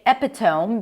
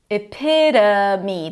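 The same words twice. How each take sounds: First: The O near the end is a long O. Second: The O near the end is a schwa. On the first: The speaker calls it wrong. "I hear a lot of people say epitome because of the T O M E spelling" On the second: The speaker calls it right. "The O is actually a schwa"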